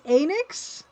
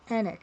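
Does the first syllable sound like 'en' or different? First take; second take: different; en. First: The first syllable does not sound like 'en'. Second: The first syllable sounds like 'en' in 'end'. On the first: This is reportedly the official way to say it. The speaker calls it right. "But apparently it's Enix?" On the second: This is the common way people say it. The speaker calls it wrong. "a lot of people do Enix like end"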